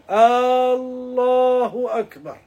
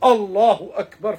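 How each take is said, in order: First: The first vowel of Allahu is drawn out long. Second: The first vowel of Allahu is kept short. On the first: It asks whether Allah is the greatest. The speaker calls it wrong. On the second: It states that Allah is the greatest. The speaker calls it right.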